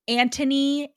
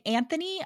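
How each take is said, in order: First: Anthony said as "AN-tuh-nee", T for TH; Anthony the British way, with T in place of TH. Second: Anthony said as "AN-thuh-nee"; Anthony the American way, with a soft TH. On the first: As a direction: draw out Anthony with a British-style hard T. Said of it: "sounds better in a British accent". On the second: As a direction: sound the TH in Anthony, American style. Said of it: "sounds better in an American accent". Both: Shown as a demonstration.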